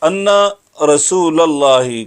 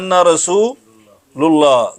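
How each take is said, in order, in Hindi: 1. 'rasool' के बाद का स्वर 'a' है। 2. 'rasool' के बाद का स्वर 'u' है।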